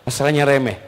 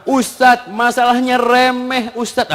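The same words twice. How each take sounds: First: Said in the usual way. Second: High, slow imitation of a complaint; complaining woman. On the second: Wife confiding in the ustadz, high drawn-out complaint. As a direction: mimic a woman pouring out a petty grievance. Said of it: "sering dapat curhatan perempuan".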